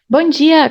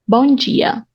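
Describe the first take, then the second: First: It is said at a normal, everyday speed. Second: It is said very slowly and deliberately. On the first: "I'm going to do a normal reading on a normal speed" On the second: "So now let's go slowly"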